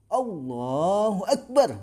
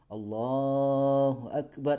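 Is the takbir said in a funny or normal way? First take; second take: funny; normal. First: It is said in an odd, comical way. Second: It is said in an ordinary, plain way.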